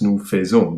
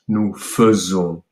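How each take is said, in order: First: The first syllable of faisons has a full 'ay' vowel. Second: The first syllable of faisons has a weak 'uh' vowel. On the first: The speaker calls it wrong. "You might predict that this one ... would be pronounced" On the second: The speaker calls it right. "but it's actually pronounced"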